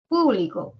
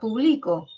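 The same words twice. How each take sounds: First: The stress is on the first syllable. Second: The stress falls after the first syllable. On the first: "el acento en la primera sílaba o en la antepenúltima" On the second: "Pero es diferente a público"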